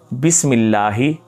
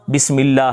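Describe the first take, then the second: First: The word ends with a final 'ee' vowel. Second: The word ends on the 'h' consonant. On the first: The speaker calls it right. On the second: The speaker calls it wrong.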